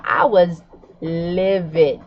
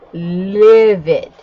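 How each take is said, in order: First: Livid said slow and weighted; stressed livid. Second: Livid alone, louder and falling; emphasized livid. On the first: Vlogger telling viewers how mad she was, stressing livid. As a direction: lean on livid, drawn out. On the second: Vlogger correcting herself to viewers, punching livid. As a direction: punch "Livid" as its own word. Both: Shown as a demonstration. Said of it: "Maybe I should emphasize that word".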